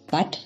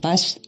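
First: The word ends with a t sound. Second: The word ends with an s sound. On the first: This is the local dialect form. "wat statt" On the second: This is the standard form. "statt was"

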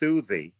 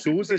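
First: The name is said with th sounds instead. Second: The name is said with normal s sounds. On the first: "statt dem S immer TH sagen" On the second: "nicht Susi"

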